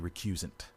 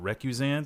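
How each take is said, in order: First: The word is said plainly, without French styling. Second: The word is said with a French-sounding flourish. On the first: The speaker calls it right. "it's probably recusant" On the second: The speaker calls it wrong. "giving it some kind of faux French flourish"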